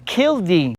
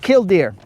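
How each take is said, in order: First: The word ends without an R sound. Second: The word ends with a clear R sound. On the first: This is how some people in the South say it. The speaker calls it wrong. "they said no, it's killdeer" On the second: This is how the speaker himself says it. The speaker calls it right. "So I say killdeer"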